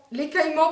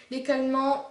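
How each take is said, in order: First: "l'écaillement" with a clear y glide, louder; corrected pronunciation. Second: "l'écaillement" slurred without its y sound; slip of pronunciation. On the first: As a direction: correct yourself firmly on "l'écaillement", sounding the "aille". (« l'écaillement » corrigé, le « aille » bien net) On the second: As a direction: say "l'écaillement" as "lékalmant", dropping the y glide. (« l'écaillement » mal prononcé, sans le son « y ») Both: Real, not acted.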